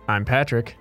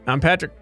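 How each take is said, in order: First: It is said with lower energy. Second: It is said with high energy.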